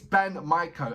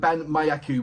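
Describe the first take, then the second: First: The second word sounds like 'maiko'. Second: The second word sounds like 'mayaki'. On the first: The speaker calls it right. "He said, it's, it's, it's Ban Maiko" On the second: The speaker calls it wrong. "it is not Ban um, Ban Mayaki, which I was saying"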